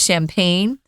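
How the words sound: The word is pronounced with an English pronunciation. "we are doing the English pronunciation"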